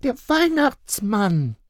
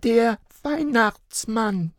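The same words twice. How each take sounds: First: Put-on high, slow child voice; reply like a small girl; answering child. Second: Put-on high, slow child voice; steadfast little girl. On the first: Little girl answering her father, high and slow. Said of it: "erwiderte Luca". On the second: Little girl insisting to her parents, high and slow. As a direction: insist like a stubborn small child. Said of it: "blieb Luca standhaft". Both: A narrator's reading.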